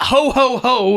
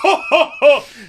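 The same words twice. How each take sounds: First: It is spoken as three plain words. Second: It is laughed out like real laughter.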